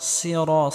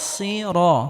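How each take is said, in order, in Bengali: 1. 's' ভারী এবং মোটা। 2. 's' ভারী এবং মোটা।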